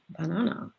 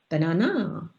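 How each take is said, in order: First: All syllables get the same, equal stress. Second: One syllable gets exaggerated, excessive stress. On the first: "equal stress" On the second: "excessive stress"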